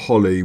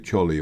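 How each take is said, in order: First: The word begins with a soft h sound. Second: The word begins with a hard ch sound. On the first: The speaker calls it right. "the C is silent" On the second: The speaker calls it wrong. "If you just read that, you'd probably say"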